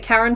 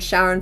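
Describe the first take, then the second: First: The name begins with a K sound. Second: The name begins with an SH sound. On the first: It refers to the god. "You say Karen for the god" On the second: It refers to Pluto's moon. "Sharon for the Pluto for Pluto's moon"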